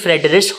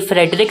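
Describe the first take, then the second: First: The name ends with a soft sh sound. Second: The name ends with a hard k sound. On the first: This is the way of saying it in its land of origin. The speaker calls it right. "Actually फ्रेडरिश होता है वो" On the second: This is the English way of saying it. The speaker calls it wrong. "ये फ्रेडरिक नहीं है"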